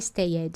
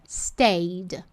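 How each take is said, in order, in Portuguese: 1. A terminação é falada como uma sílaba extra. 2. A terminação é falada sem sílaba extra. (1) "o seu cérebro que fica querendo ler stay it" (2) "a pronúncia correta... A gente não pronuncia esse E"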